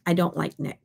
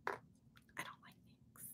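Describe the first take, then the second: First: Said in the usual way. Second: Barely audible whisper; whispered aside. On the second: Pretend. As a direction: whisper it like a secret confession. Repeats the remark as an aside.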